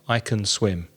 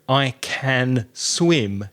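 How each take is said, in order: First: The word can has a weak uh vowel. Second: The word can has a full vowel. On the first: "you hear I can swim. So it's an uh sound" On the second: "you often don't hear"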